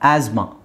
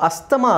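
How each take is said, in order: First: No t sound is heard in the middle. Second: A t sound is heard in the middle. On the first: The speaker calls it right. "ಟಿ ಎಚ್ silent ಆಗುತ್ತೆ" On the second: The speaker calls it wrong. "Actually ಅದು ಅಸ್ತಮ ಅಲ್ಲ"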